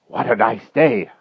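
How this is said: It is said breathlessly, as if frightened.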